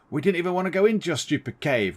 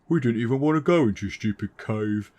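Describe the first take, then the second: First: It is said in the reader's own voice. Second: It is said in Grunson's character voice.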